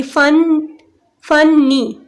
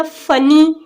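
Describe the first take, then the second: First: फनी broken into फन and नी with a pause; split into syllables. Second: Said in the usual way. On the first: Shown as a demonstration. Teacher showing two syllables in funny, broken apart. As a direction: say "फन, फनी" as two separate beats. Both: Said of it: "तो टू syllables हो जाएंगे".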